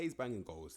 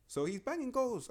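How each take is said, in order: First: Said in the usual way. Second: Excited. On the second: Real, not acted. Rating a striker, hyped about his goals, high excited voice. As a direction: pitch jumps high, slow and drawn out on banging.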